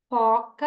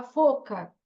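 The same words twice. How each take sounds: First: "foca" with an open, clear first o; correct model. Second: "foca" with a closed first o, "fôca"; child's misreading. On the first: Shown as a demonstration. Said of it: "aí eu repito". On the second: Retold or imitated. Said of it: "ela fala foca".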